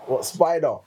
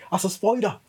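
First: Said in the usual way. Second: Put-on "spider" as "spoider" in Suffolk accent. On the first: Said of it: "that's not how you said it". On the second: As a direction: slip into a rural Suffolk accent, higher on "spider". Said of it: "my Suffolk accent would come on".

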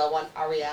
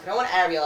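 First: Ariel starting with an "ah" sound; preferred name pronunciation. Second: Ariel starting with an "air" sound; rejected English pronunciation. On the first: Explaining the wanted name, Ariel said "AH-ree-el". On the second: Explaining the unwanted name, Ariel said "AIR-ee-ul". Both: Shown as a demonstration. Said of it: "No, it's pronounced different".

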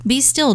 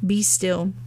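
First: "Be still" lifted higher, "still" stressed; "Be still" pitched up with a stressed "still"; rising be still. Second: Gentle, hushed "Be still"; soft be still. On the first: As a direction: raise "Be still" into a firmer command. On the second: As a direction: let "Be still" settle like a calm word. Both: Shown as a demonstration. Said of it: "Also referencing great peace".

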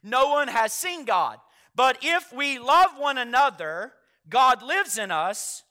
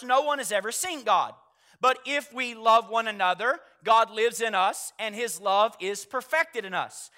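First: Slowed right down, leaning on "love" and "lives"; slow, striking emphasis. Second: Said in the usual way. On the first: Shown as a demonstration. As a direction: let each phrase land slowly and weightily. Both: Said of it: "Now notice how striking that line is".

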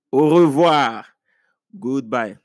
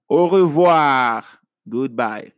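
The two takes are said the same way.

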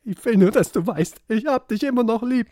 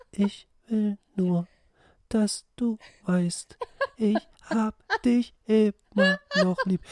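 First: Higher, louder mock-tender plea; hammed-up fragile lover; fragile singer voice. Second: Right in your ear, fragile and slow; fragile whisper-close singer voice. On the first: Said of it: "und sagst". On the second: Retold or imitated. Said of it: "diese ganz leicht zerbrechliche Stimme".

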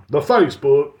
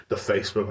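First: Said in the usual way. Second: Mock boomer. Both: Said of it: "I'm a boomer".

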